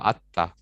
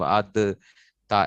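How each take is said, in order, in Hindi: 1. d पूरी तरह दोहरे t में मिल जाता है। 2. d अलग से बोला जाता है, हल्के झटके के साथ। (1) "वो आता" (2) "कलकले ना करते फिरना ... ऐसे नहीं"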